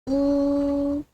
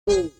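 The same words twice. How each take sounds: First: The pitch stays high and level. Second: The pitch dips low, then rises. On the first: "First tone" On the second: "Third tone"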